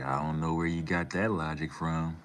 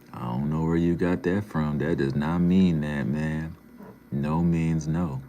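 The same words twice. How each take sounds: First: Said in the usual way. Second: Loud, firm telling-off; emphatic rebuke. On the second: Real, not acted. Streamer rebukes a chatter over consent, loud and emphatic. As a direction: say it again much louder, driving each point home.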